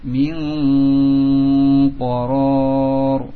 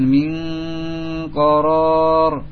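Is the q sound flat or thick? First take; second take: thick; flat. First: The q sound is thick and heavy. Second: The q sound is flat and thin. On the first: The speaker calls it right. "ditebalkan dengan diangkat pangkal lidahnya" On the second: The speaker calls it wrong. "tidak dibaca dengan min koror ... Ini semua mendatar"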